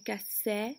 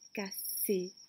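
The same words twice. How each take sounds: First: The final vowel is an open è sound. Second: The final vowel is a closed é sound. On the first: "Sinon j'aurais dit" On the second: "c'est le son et"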